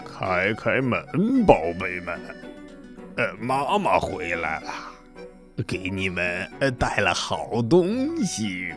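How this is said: The voice sounds rough and coarse.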